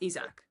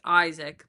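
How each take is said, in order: First: The name is said with French pronunciation. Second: The name is said with English pronunciation. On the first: This is how the name's owner says it. "if you ask me, it's Isaac" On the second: This is how English speakers usually say it. "in English, typically it's pronounced Isaac"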